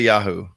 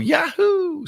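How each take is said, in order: First: The word is said in a calm, plain way. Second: The word is said in an excited, lively way. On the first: "I I say Yahoo" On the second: "if I'm excited, I guess I would go Yahoo"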